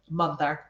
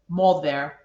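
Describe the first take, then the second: First: The first vowel is pronounced as an 'ah' sound. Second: The first vowel is pronounced as an 'o' sound. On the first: The speaker calls it right. "all of those should be" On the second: The speaker calls it wrong. "instead of using that, we use the O"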